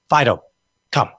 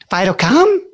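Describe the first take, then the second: First: The voice sounds firm and commanding. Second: The voice sounds pleading and uncertain. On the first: The dog is expected to obey. The speaker calls it right. "there's called commands for a reason" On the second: The outcome is left in doubt. The speaker calls it wrong. "So we don't go"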